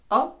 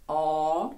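First: «а» cut very short; a quick, brief «а»; short vowel. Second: «а» drawn out long; long vowel. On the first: Teacher contrasts long and short sounds, short vowel. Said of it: "коротке". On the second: Teacher contrasts long and short sounds, long vowel. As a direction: hold the «а» sound. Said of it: "довге". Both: Shown as a demonstration.

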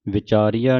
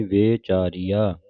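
First: ਵਿਚਾਰੀਆ with a short "vi" start; mispronunciation demo. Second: ਵਿਚਾਰੀਆ slowly, opening on a long "vay"; lengthened first vowel. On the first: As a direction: say ਵਿਚਾਰੀਆ quickly with a short first "i". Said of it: "ਵਿਚਾਰੀਆ ਨਹੀਂ ਕਹਿਣਾ". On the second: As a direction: stretch the first syllable of ਵਿਚਾਰੀਆ into "vay-chaariaa". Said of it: "ਲੰਮੀ ਕਰਕੇ ਉਚਾਰਨ ਕਰਨੀ". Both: Shown as a demonstration.

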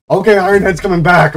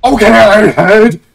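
First: Lively, somewhat loud announcement; excited. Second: Loud, raised cheer; excited shout. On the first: Gamer announcing Iron Head's comeback, excited. Cheering game player's comeback. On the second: Gamer hailing Iron Head's comeback, excited shout. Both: Real, not acted.

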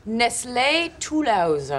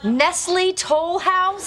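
First: "Nestlé Toulouse" said very slowly as nest-LAY too-LOOZ with French vowels; French pronunciation. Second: "Nestle Toll House" said very slowly in flat American English, a questioning rise; Americanized. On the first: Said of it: "You Americans always butcher the French". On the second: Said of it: "always butcher the French language". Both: Acted.

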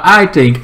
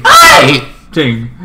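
First: Said in the usual way. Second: "I" punched loud, almost shouted; stress on I. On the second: Real, not acted. Vlogger insisting on own opinion, loud stress on "I". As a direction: hit "I" hard and loud, then ease off "think".

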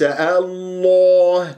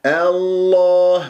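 First: الله drawn out as Allooh; rounded lips, wrong. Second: الله slowly with an open long aa; unrounded heavy lam. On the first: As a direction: round the vowel in الله toward o. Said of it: "وليس الله". (الله بتكوير الشفاه خطأ) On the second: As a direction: keep lips unrounded through الله. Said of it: "تكور الشفاه في نطق اسم الجلال". (الله بتفخيم دون تكوير) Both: Shown as a demonstration.

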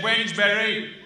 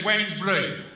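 First: Put-on slow American accent on WEDNESBURY; American general. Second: Said in the usual way. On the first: American general puzzling over WEDNESBURY, slow American accent. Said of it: "fat American general, you know, the type". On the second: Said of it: "And I said".

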